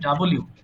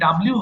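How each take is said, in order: First: It is said as two words, 'double you'. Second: It is run together as 'dablyoo'. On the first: The speaker calls it right. "এটা সঠিক উচ্চারণ হবে ডাবল ইউ" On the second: The speaker calls it wrong. "তো এটা ডাব্লিউ হবে না"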